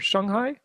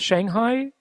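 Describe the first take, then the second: First: It is said with a Chinese-style pronunciation. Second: It is said with an American English pronunciation.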